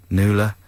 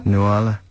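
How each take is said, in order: First: "Nuala" in two syllables, NOO-la; pronounced NOO-la. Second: "Nuala" in three syllables, noo-AH-la; pronounced noo-AH-la. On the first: Trying out the name for co-host, NOO-la. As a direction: say "Nuala" as NOO-la, middle vowel dropped. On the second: Trying out the name for co-host, noo-AH-la. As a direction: say "Nuala" with a clear AH in the middle. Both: Shown as a demonstration. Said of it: "Is that how you pronounce it?".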